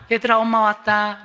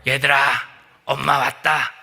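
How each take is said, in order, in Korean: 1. 목소리가 부드럽고 맑습니다. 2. 목소리가 거칠고 걸걸합니다. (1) "걸걸했던 목소리를 다시금 바꿔서" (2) "걸걸한 그 늑대의 목소리"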